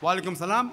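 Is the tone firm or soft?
firm. It is said in a firm, reserved tone. The reply is polite but gives no encouragement. The speaker calls it right. "be firm"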